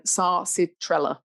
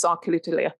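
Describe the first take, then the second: First: Sarcitrella said slowly, syllable by syllable; slow, careful sarcitrella; slower repeat. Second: Sarcilitilla rattled off quickly; rushed. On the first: Shown as a demonstration. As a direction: spell out sarcitrella carefully by sound. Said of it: "I said that a bit quickly then". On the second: Real, not acted. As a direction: run through sarcilitilla in one quick go. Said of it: "I said that a bit quickly".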